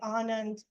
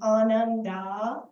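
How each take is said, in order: First: The word ends on the consonant, no final vowel. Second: The word ends with a final 'a' vowel. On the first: "in North India, which is where I reside primarily, we say anand. We don't add the a" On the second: "in Sanskrit we pronounce the a like ananda"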